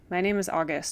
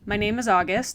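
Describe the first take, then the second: First: It is mumbled quietly. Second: It is said louder and clearer.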